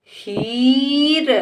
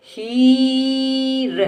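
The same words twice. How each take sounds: First: हीर joined, ee rising into र; blended word. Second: हीर with long level ही, then र; sounded out. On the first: Teacher blends the word for a child, joined up. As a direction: run हीर into one word. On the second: Teacher sounds out the word for a child, stretched. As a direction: stretch हीर apart slowly. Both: Shown as a demonstration. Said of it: "इस तरह से बेटा हम शब्दों को".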